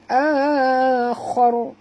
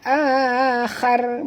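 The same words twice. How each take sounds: First: The word is said with thick, heavy sounds. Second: The word is said with thin, light sounds. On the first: The speaker calls it right. "tapi akhar. Ya, tebal" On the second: The speaker calls it wrong. "Bukan akhar"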